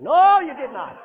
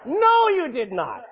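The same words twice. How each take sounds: First: Loud denial. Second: Slow firm denial. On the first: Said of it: "repeated denial". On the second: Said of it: "repeated denial slower". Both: Real, not acted.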